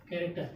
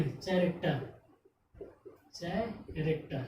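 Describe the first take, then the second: First: कैरेक्टर said with a k sound, ke-rek-ter; कैरेक्टर started with a plain k, no ch; correct reading. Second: कैरेक्टर said as chaa-rek-ter with a ch sound; कैरेक्टर begun with ch, the wrong way; common misreading. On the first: Shown as a demonstration. Teacher gives students the right k reading. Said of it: "तो कैरेक्टर यानी सी A R A सी". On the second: Retold or imitated. Teacher imitates students' ch misreading, slowly. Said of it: "बहुत लोग इसको क्या पढ़ेंगे?".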